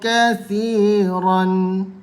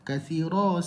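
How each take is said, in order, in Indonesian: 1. Kata ini berakhir dengan bunyi n. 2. Kata ini berakhir dengan vokal, tanpa n. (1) "ni saya hidupkan tanwin" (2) "patutnya kathira"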